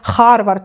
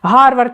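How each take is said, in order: First: The word begins with a rough kh sound. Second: The word begins with a voiced h sound. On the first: The speaker calls it wrong. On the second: The speaker calls it right.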